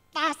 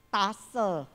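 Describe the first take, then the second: First: The word ends in the final consonant. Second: The word ends in an added vowel. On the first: "nggak bisa" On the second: "mereka ngomong"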